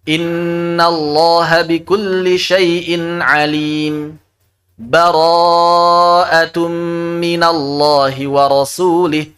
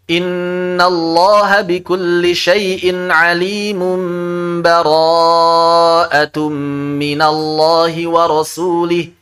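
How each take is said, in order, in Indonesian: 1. Ada jeda singkat yang memisahkan kedua ayat. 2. Kedua ayat itu bersambung tanpa jeda. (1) "Boleh juga wasal sakat" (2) "Idraj maksudnya ya"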